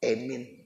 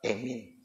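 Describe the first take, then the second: First: The first vowel sounds like e. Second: The first vowel sounds like e.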